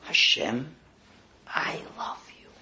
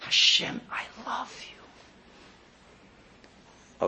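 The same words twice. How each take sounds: First: Whispered, full of emotion; heartfelt whisper. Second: Weary, whispered, drained; tired whisper. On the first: Shown as a demonstration. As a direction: breathe it out like a confession of love. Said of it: "with the most emotional voice you could drum up". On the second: Retold or imitated. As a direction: sigh it out after a long hard day. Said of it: "you're tired, and you just go".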